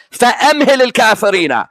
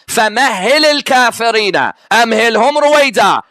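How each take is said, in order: First: فَأَمْهِلِ rushed as "fa-amhili", the h not doubled; quick, accented "فَأَمْهِلِ"; imitating the misreading. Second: فَمَهِّلِ with doubled h, "fa-mahhili", as the proper verse; correct recitation. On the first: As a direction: run "فَأَمْهِلِ الْكَافِرِينَ" together fast like the accented reader. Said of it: "His accent was saying it so quick". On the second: Shown as a demonstration. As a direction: give the true reading, "فَمَهِّلِ" with a stressed shadda. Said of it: "The verse is what?".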